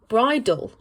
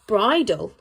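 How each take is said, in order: First: It ends cleanly on the L sound. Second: It ends cleanly on the L sound.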